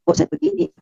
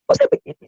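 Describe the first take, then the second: First: High, tearful cry of despair; pleading through tears; a hint of a sob in the voice. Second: Much higher, anguished tearful wail; crying out to herself in despair. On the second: Retold or imitated. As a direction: break into a desperate cry. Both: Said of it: "Saya menangis, saya bilang".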